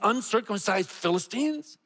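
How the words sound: It is read with a scornful, disdainful tone.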